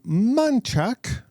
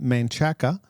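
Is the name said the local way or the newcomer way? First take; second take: local; newcomer. First: The name is said the way locals say it. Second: The name is said the way newcomers say it.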